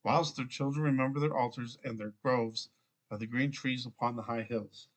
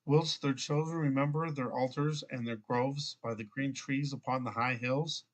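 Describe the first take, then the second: First: Scripture line closing downward on "hills"; falling, finished tune on "hills"; read as a statement. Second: Scripture line ending like a question, rising on "hills"; read as a question. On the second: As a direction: question tune through to "hills". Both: Real, not acted. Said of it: "I said that as a question".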